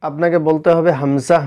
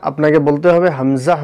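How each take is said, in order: No difference in how they are said.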